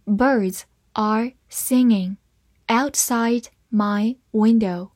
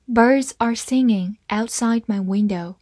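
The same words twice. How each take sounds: First: Slow, word-by-word model reading; unhurried read-along for learners. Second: Said in the usual way. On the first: Shown as a demonstration. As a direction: pause briefly between the words. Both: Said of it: "慢慢来读".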